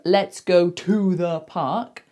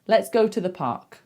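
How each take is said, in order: First: The word 'to' has a full vowel. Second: The word 'to' is reduced to a schwa. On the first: The speaker calls it wrong. "instead of" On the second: The speaker calls it right. "it is said with a schwa"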